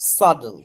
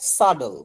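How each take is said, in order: First: The middle consonant sounds like a soft d. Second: The middle consonant sounds like a soft d.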